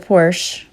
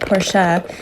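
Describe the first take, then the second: First: The name is pronounced the English way. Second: The name is pronounced the German way. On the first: The speaker calls it wrong. "Shame on me for not pronouncing it the right way" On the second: The speaker calls it right. "I should say, as a German teacher"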